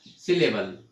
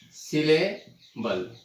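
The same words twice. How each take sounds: First: Said in the usual way. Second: "syllable" drawn out slowly with a break before the last syllable. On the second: Shown as a demonstration. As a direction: split "syllable" into slow, separate pieces. Teacher breaks word into syllables. ("Syllable" को धीरे-धीरे टुकड़ों में तोड़कर)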